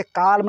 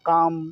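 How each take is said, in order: First: "काल्म" with L voiced before M; L sounded. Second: "काम" with long vowel straight into M; silent L. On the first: Teacher shows what not to read, L sounded in "काल्म". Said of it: "काल्म नहीं पढ़ेंगे". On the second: Teacher gives the correct reading, L silent in "काम". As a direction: say "काम" with no L sound. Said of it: "इसको बोलेंगे". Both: Shown as a demonstration.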